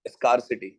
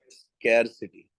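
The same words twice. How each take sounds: First: स्कार्सिटी low, with open "ah"; plain "skar" pronunciation. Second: स्कैरसिटी low and slow, drawn-out "skair"; stylish "skair" pronunciation. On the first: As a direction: say स्कार्सिटी like "scar", without flair. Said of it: "मजा नहीं आ रहा". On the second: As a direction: savour the "scare" in स्कैरसिटी. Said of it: "level बन रहा है". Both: Shown as a demonstration.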